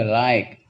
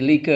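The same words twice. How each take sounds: First: "like" with an eye vowel, one syllable; correct English reading. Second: "like" sounded out with an ee vowel, lee-kuh; read as spelled. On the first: Teacher summing up the rule, "like" as lyke. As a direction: say "like" as lyke, silent final e. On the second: Teacher summing up the rule, "like" as lee-kuh. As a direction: say "like" as written, with ee. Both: Shown as a demonstration. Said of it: "kalau ada ucapan I".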